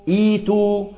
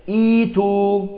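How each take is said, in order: The two takes are said the same way.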